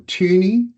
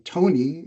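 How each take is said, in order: First: The name has a rounded umlaut vowel. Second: The name sounds like Tony. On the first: "if you're a European, you're familiar with the O and the two little dots above it, and you go" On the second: "An American might quite often say"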